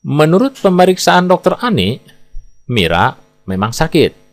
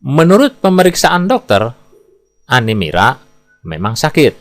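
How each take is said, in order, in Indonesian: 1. Jeda ada tepat setelah "Ani". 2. Jeda ada tepat setelah "dokter". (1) "bila kita baca dengan jeda seperti ini, maka kita bisa menafsirkan yang memeriksa bernama dokter Ani, yang sakit adalah Mira" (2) "Bila kita baca dengan jeda seperti ini, kita bisa menafsirkan yang memeriksa dokter dan yang sakit adalah Anemira"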